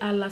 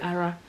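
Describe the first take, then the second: First: The middle consonant is an L sound. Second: The middle consonant is an R sound. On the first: It reflects one regional dialect. "Some people say ala" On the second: It reflects another regional dialect. "some people say ara"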